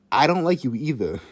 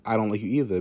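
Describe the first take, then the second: First: Stating the obvious; pointed, obvious comeback. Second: Said in the usual way. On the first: Retold or imitated. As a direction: say it as blatantly obvious retort. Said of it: "In the most obvious tone ever". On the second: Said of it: "to me saying".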